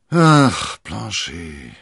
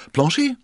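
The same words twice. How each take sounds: First: Loud sigh sinking into the name; heavy, falling lament. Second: Very high, loud summons; playful, rising shout; high-spirited call. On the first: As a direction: heave a sigh, then drop away. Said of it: "seufzte D'Artagnan". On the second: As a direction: call the servant's name exuberantly. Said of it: "rief er übermütig". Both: A narrator's reading.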